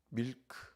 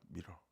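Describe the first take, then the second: First: It ends with a clear k sound. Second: It ends without a k sound. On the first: Shopkeepers did not understand it. The speaker calls it wrong. "이렇게 발음이 안 된다는 걸 몰랐죠" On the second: Shopkeepers understood it. The speaker calls it right. "이게 이제 통하는 거예요"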